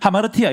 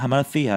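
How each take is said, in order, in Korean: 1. t는 평범한 한국식 t입니다. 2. t는 혀를 앞니 뒤에 대고 냅니다. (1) "그냥 하마르티아" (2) "하마르티아 하면 있어 보이잖아요"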